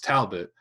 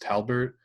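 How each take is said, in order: First: The last syllable has no R sound. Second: The last syllable has an R sound. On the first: The speaker calls it right. "it's Talbot" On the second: The speaker calls it wrong. "a lot of people mispronounce my last name as Talbert"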